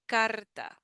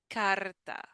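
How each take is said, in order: The two takes are said the same way.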